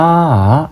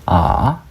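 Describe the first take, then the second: First: The syllable is said with a level tone. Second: The syllable is said with a rising tone. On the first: "이게 평성이고" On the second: "이게 상성이고"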